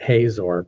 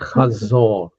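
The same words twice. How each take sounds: First: The name is said with an American pronunciation. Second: The name is said with its local pronunciation. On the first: The speaker calls it wrong. "many many Americans will just pronounce it Hazor" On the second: The speaker calls it right. "Hazor is how this is pronounced"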